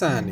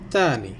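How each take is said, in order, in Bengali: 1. শব্দটি 's' ধ্বনি দিয়ে শুরু হয়। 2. শব্দটি 't' ধ্বনি দিয়ে শুরু হয়। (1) "অনেকে বলে সানি" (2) "সেকেন্ডের আরবি হচ্ছে তানি"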